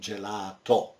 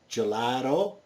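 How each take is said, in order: First: It is said with an Italian pronunciation. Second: It is said with an English pronunciation. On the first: "in Italian we say" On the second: "in English"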